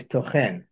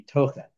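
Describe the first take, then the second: First: "tochen" said as to-CHEN, the weight landing on the final syllable "chen"; stress on last syllable. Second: "tochen" said as TO-chen, the weight on the first syllable "to"; stress on first syllable. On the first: Teacher showing the verb reading, stressing to-CHEN at the end. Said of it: "tochen is the stress on the last syllable". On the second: Teacher contrasting the noun reading, stressing TO-chen at the start. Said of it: "the stress on the, on the penultimate syllable". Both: Shown as a demonstration.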